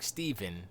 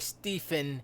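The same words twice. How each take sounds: First: The middle consonant is a v sound. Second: The middle consonant is an f sound. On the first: "which is with the V" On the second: "If you say Stephen fast"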